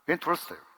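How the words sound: It is said with an American English accent. Listeners can hardly understand it. "미국식 발음하면 entrust"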